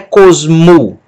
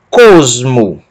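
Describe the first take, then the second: First: The stress is on the last syllable. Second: The stress is on the first syllable. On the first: The speaker calls it wrong. "Não é cosmo" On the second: The speaker calls it right. "mas cosmo. Sílaba tônica é a penúltima"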